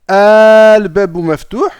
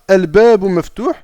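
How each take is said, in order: First: The opening vowel is drawn out long. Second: The opening vowel is short, with no extra hamza. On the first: It is a question. "là on sait que effectivement ça va être une interrogation" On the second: It could be a statement or a question. "la hamzatul wasl, elle va disparaître parce qu'on va faire la liaison"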